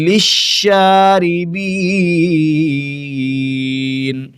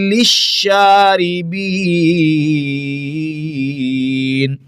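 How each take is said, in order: No difference in how they are said.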